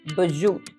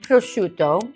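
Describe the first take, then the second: First: It is said in a New Jersey accent. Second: It is said in a standard, non-regional way.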